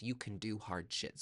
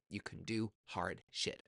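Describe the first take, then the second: First: Said in the usual way. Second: Slow emphatic repeat. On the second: Shown as a demonstration. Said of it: "slower repeat".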